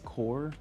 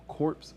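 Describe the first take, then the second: First: The word ends without any 'ps' sound. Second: The word ends with a 'ps' sound. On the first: The speaker calls it right. "That's the proper pronunciation for it" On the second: The speaker calls it wrong. "I don't know if they want to be wanted to be pronounced corpse"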